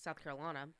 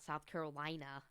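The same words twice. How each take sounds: First: Carolina is shortened, with a syllable dropped. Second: Carolina is said in full, every syllable pronounced. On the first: This is how locals say it. The speaker calls it right. "We're lazy. We don't like pronunciating the whole thing" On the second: This is how an outsider says it. The speaker calls it wrong.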